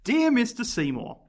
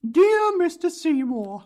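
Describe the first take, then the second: First: It is read in a plain natural voice. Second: It is read in a put-on character voice. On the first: "let's not do it" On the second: "try to do a voice"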